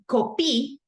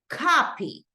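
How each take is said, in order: First: The stress is on the second syllable. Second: The stress is on the first syllable. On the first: The speaker calls it wrong. "instead of saying copy" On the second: The speaker calls it right. "The stress goes in this first part"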